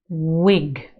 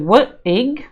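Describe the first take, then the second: First: The w sound blends smoothly into the word. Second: The w sound is split off before the word. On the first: The speaker calls it right. "we just go woo" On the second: The speaker calls it wrong. "we don't go what ig"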